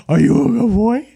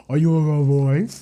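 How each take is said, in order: First: Praising the dog in a higher voice; pet talk. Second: Cooing to the dog; pet talk. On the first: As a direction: lift it up into sing-song praise. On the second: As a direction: ask the dog tenderly. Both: Real, not acted. Talking to the dog.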